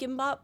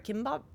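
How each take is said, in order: First: The word begins with a soft G sound. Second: The word begins with a hard K sound. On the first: "it said G I M B A P" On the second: "I've always heard it as kimbap"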